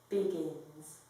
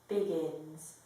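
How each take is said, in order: The two takes are said the same way.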